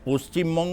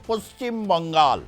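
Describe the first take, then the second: First: The name ends with the sound 'Banga'. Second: The name ends with the sound 'Bangal'. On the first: It is the proper Bengali form of the name. The speaker calls it right. "পশ্চিমবঙ্গ উচ্চারণ করাটা কি খুব কঠিন?" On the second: It imitates how Hindi-speaking politicians say it. The speaker calls it wrong. "আরে পশ্চিমবঙ্গ উচ্চারণ করাটা কি খুব কঠিন?"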